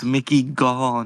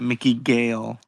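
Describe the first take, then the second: First: The surname has the vowel of 'all'. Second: The surname has the vowel of 'ale'. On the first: The speaker calls it right. "because it's Mickey Gall" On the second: The speaker calls it wrong. "not Mickey Gale"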